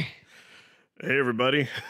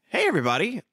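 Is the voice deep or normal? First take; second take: deep; normal. First: It is said in a lower, deeper voice. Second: It is said in a normal voice.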